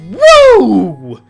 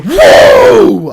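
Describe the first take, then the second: First: It is said with little enthusiasm. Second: It is said with much enthusiasm.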